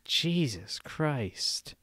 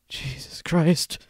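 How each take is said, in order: First: It is said in a dismayed, sympathetic tone. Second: It is said in a frightened, startled tone. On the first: Something embarrassing or unfortunate was just heard. "if someone tells you something embarrassing or unfortunate, you go" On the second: Something frightening just happened.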